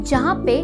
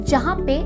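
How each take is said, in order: No difference in how they are said.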